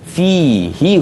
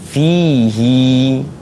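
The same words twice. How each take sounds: First: The final vowel is kept short. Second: The final vowel is drawn out long. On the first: "dia baca pendek" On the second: "dibaca dengan panjang"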